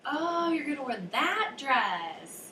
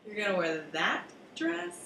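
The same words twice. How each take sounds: First: Long rising "Oh", then slow, much higher and drawn out; dawning realization on oh. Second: "that" stressed, disbelieving and a touch softer; disapproving stress on that. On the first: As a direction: stretch the "Oh" as it dawns on you, slowly. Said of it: "the rising pitch and elongation of the word "oh". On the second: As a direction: lean on "that", doubtful of the dress. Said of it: "this time on the word that". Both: Shown as a demonstration.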